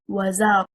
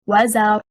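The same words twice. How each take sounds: First: The stress is on the second syllable. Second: The stress is on the first syllable. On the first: It becomes a conjunction plus a verb. The speaker calls it wrong. "The incorrect performance, stressing on حركة الزاي" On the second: It is a single word. The speaker calls it right. "The correct performance is"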